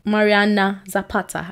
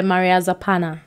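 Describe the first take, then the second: First: "Mariana Zapata" said carefully, correcting the mistake; corrected name. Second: "Maria Zapana" said by mistake, in her normal voice; wrong name. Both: Real, not acted. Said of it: "I knew I said something wrong".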